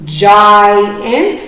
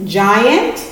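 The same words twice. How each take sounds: First: "Giant" stretched as gi and ant; careful split read of "Giant"; syllable split demo. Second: Said in the usual way. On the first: Shown as a demonstration. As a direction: say "Giant" slowly in two parts. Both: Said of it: "The split in between the vowels".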